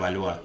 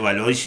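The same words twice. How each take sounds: First: The name is said with French-style sounds. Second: The name is said with Spanish-style sounds. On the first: The speaker calls it right. "así como los franceses pronuncian" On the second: The speaker calls it wrong. "yo siempre pronuncié Valois y no"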